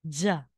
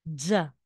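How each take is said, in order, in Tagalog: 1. Nagsisimula ito sa tunog na 'dz', parang may huni. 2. Nagsisimula ito sa tunog na 'dz', parang may huni.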